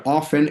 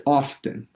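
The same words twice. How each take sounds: First: "often" without the T, OFF-en; colloquial silent T. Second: "often" with the T sounded, OF-ten; T pronounced. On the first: Teacher cites colloquial "often", T dropped. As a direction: leave the T out of "often". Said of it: "often es muy coloquial". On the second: Teacher restates the proper "often", T pronounced. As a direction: keep the T audible in "often". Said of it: "Pero es often". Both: Shown as a demonstration.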